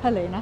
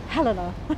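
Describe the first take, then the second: First: The name is said in a plain, neutral way. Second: The name is said sharply, as if annoyed. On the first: The speaker calls it wrong. "I knew I'd get it wrong" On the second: The speaker calls it right. "I've got to say it as though I'm angry"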